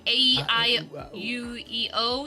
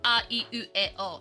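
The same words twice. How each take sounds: First: The vowels are said like English letter names. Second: The vowels are said as pure Japanese vowels. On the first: "You could just say it like that" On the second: "they are pronounced in like a Japanese pronunciation"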